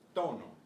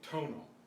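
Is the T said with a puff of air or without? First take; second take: without puff; with puff. First: The T has no puff of air. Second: The T has an English-style puff of air.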